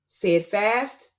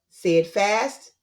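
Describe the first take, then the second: Both takes have the same delivery.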